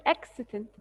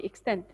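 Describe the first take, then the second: First: "extant" stressed on EX, weak ending; mispronounced extent. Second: "extent" as ik-STENT, stressed second syllable; corrected pronunciation. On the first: Teacher repeating the second word, mispronounced with first-syllable stress. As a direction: say "extant" as EK-si-tent, front-stressed. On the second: Teacher correcting a slip for the class, stress on second syllable. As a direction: put the stress of "extent" on TENT. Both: Real, not acted. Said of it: "sorry, extent".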